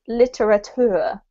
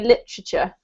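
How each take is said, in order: First: Every syllable is pronounced fully and drawn out. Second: The syllables are squashed together into fewer sounds. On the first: "he pronounced this literature" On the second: "we actually squash this word up. So I actually say literature"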